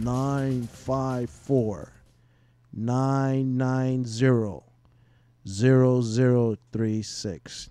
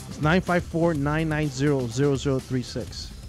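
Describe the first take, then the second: First: The number is read at a slower pace. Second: The number is read at a faster pace.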